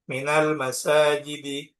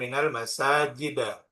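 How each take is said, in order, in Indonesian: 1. Kata terakhir berakhir dengan vokal i. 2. Kata terakhir berakhir dengan vokal a. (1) "Jarnya menggunakan kasroh" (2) "bukan minal masajida"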